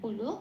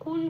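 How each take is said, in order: First: The word ends with a full o vowel. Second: The word ends on the bare l consonant. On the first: The speaker calls it right. "পূর্ণরূপে উচ্চারণ করতে হবে কুলো" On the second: The speaker calls it wrong. "কুল বলতে পারবো না"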